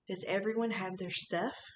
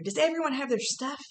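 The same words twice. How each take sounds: First: It is said calmly at normal volume. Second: It is yelled loudly and excitedly.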